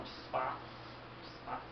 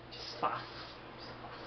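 First: Soft, shy whisper; timid whisper. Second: Hushed, timid whisper. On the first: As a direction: barely voice it, shyly. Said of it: "Só, só isso que ele fala". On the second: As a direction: whisper it shyly under breath. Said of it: "dizer de uma forma tímida". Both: Acted.

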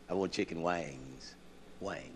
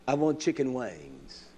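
First: Undignified take. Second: Drawn-out take. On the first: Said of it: "That's too dignified". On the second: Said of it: "I don't want no wings". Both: Shown as a demonstration.

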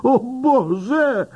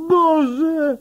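First: Bardzo wysoki, spanikowany okrzyk; wrzaśnij w panice na widok szarżującej świni; przerażony wrzask. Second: Jeszcze wyższy, piskliwy wrzask grozy; przeciągnięty pisk przerażenia; panika na szczycie. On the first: (policjant ucieka przed świnią, wrzeszcząc ze strachu) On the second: (policjant w panice ucieka przed świnią) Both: A narrator's reading. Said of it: "wrzeszczy gliniarz".

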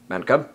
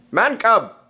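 First: Said in the usual way. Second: Calling out. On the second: Acted. Bagheera calling for Mowgli.

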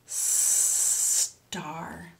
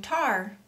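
First: STAR with a very long hissed S before the T; snake sound kept. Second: TAR starting straight on T with no S; missing snake sound. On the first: Teacher corrects the mistake for children, long S. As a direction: stretch the S clearly in star. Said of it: "It's star". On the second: Teacher shows children the mistake, TAR without S. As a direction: drop the S from star, saying tar. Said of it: "you're not saying tar". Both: Shown as a demonstration.

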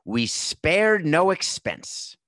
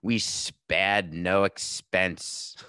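First: Grand, slow, high showman's boast; film park founder's proclamation. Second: Very slow, drawn-out mock Australian accent; badly faked Australian, stretching every word; attempted Australian accent. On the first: Acted. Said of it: "he would point things out and say". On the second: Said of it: "in an amazing Australian accent".

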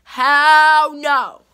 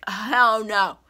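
First: Much louder, drawn-out shouted refusal; loud hell no. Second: Said in the usual way. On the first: Real, not acted. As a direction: belt it out as the final word. Rejecting fake friendship, repeated louder.

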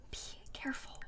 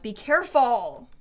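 First: Barely audible whisper; whispered warning. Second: Said in the usual way. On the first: Real, not acted. Streamer cautioning her Sim by the pond, whispering. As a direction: repeat the warning under your breath, fully whispered. Repeats warning under breath.

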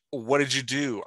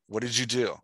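First: "What did you do?" said as a mild demo scream, a bit higher; mock scream. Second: Said in the usual way. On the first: Shown as a demonstration. Coach demonstrating how a screamed tag changes the line. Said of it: "I screamed". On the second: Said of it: "which is flat".

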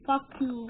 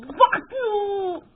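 First: Said in the usual way. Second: Angry yell. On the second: Real, not acted.

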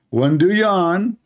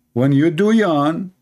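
First: Slow emphasis. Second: "When you do yawn" drawn out slowly; slowed, stressed "do". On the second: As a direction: lean on "do", slow. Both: Shown as a demonstration.

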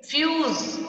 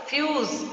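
First: Said in the usual way. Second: Fuse said as fyooz with a drawn-out long U; teacher repeats Fuse slowly, stretching fyooz; long U sound. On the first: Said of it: "क्या?". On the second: Shown as a demonstration. Teacher to class, repeating Fuse with a stretched long U. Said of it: "yes, long sound".

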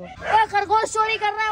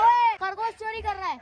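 First: Higher, excited call about the thief. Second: The same excited high call, repeated. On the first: Friend in a cage calls out about the rabbit thief, excited. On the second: Friend in a cage shouts across the farm again, excited. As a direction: keep calling over, excited. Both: Real, not acted.

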